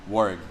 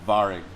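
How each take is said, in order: First: The name begins with a W sound. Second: The name begins with a V sound. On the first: This is the English pronunciation. "But ultimately, Warrig, English" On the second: This is the German pronunciation. "if you pronounce it in German, it's uh, W's or V"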